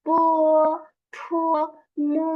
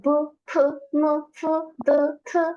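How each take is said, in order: First: Each syllable cut short and quick; short and clipped. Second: Each syllable stretched long and clear; drawn out. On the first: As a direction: snap out বু, ফু, মু briefly. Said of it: "just একটু সংক্ষেপে পড়া". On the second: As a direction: draw out বু, ফু, মু, ফু, দু, থু. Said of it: "একটু বড় করে পড়া". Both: Shown as a demonstration.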